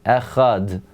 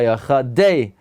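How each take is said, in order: First: The word ends on a clean d sound. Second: The final d is followed by an extra vowel. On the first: The speaker calls it right. "That there's a dalet sound, but not a di sound" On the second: The speaker calls it wrong. "because it's going to say echadeh or echadeh"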